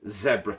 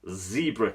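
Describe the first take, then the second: First: The word has a non-American pronunciation. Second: The word has an American pronunciation.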